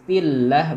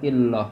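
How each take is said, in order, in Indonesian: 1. Bunyi L dibaca tipis. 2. Bunyi L dibaca tebal. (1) "hukumnya tarkik dibaca tipis"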